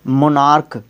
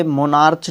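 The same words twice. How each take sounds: First: मोनार्क ending in a hard K sound; correct pronunciation. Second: मोनार्च ending in a CH sound, as in chair; wrong pronunciation. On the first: Teacher shows students how CH sounds here, मोनार्क with final K. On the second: Teacher shows what not to say, मोनार्च with final CH. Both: Shown as a demonstration. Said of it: "मोनार्च नहीं बोलते इसको".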